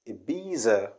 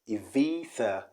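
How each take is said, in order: First: The middle consonant is a buzzing z sound. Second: The middle consonant is a soft th sound. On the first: The speaker calls it wrong. "people do say Ibiza" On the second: The speaker calls it right. "The B changes to V and the Z changes to Th"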